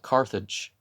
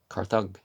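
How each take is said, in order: First: The g is soft, like a j. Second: The g is hard, like in go. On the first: The speaker calls it wrong. "not Carthage" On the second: The speaker calls it right. "you don't say it as a J"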